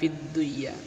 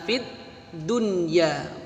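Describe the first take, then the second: First: The nun is merged into the following ya. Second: The nun is pronounced clearly before the ya. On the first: The speaker calls it wrong. "bukan fid dunya" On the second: The speaker calls it right. "Rabbana atina fid dunya"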